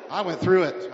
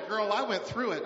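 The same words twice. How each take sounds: First: I went through it, punched out much louder; much louder repeat. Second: Said in the usual way. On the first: Real, not acted. Pastor insisting to wife and church, much louder repeat. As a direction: hammer the line home the second time. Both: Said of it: "I'm telling you".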